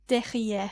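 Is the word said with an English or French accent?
French. It is said with a French accent. The speaker calls it right. "pronounce it with the French accent"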